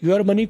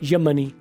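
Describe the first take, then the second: First: The word 'your' has a full vowel. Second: The word 'your' has a reduced vowel.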